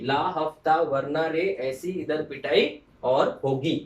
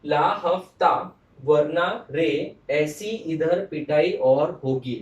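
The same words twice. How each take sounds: First: Said in the usual way. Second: Slow, louder, each word spaced out; slow mnemonic recital. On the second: Shown as a demonstration. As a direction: drill it slowly for the class. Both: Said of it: "I'll repeat".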